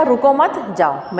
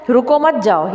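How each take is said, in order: First: Slow "रुको, मत", pause, separate "जाओ"; 'मत' के बाद विराम. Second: "रुको, मत जाओ" as one unbroken phrase; no pause before or after "मत"; बिना विराम. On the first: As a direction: hold off "जाओ" until after a break following "मत". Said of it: "विराम चिन्ह यहाँ लगा दिया". ("रुको, मत" साथ, फिर रुककर "जाओ") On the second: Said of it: "जिसमें कोई विराम चिन्ह नहीं लगा था". ("रुको, मत जाओ" बिना रुके बोलें) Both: Shown as a demonstration.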